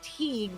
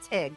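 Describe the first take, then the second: First: The name is said in its careful, enunciated form. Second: The name is said in the shortened local form. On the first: "if you enunciate it's Teague" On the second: "they call it Tig"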